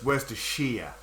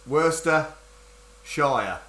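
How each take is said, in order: First: It is said run together as one word. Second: It is said as two separate parts. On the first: "But together it's Worcestershire" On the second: "it's Worcester Shire, essentially"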